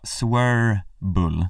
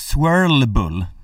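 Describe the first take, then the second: First: No L sound is heard in the middle. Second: An L sound is heard in the middle. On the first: The speaker calls it right. "När det borde vara swirl-bull" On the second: The speaker calls it wrong. "Han har ju medvetet lagt in det där L-et"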